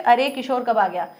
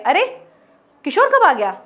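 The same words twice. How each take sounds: First: It runs on without a pause after the first word. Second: An exclaimed first word, then a pause before the rest. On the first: It is a plain remark without surprise. "लेकिन ये बोलते समय आप कैसे बोलोगे?" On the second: The speaker is surprised. "इसको ऐसे बोला गया"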